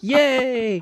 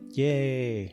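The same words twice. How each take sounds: First: It is said excitedly, with lots of energy. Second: It is said flatly, with little energy.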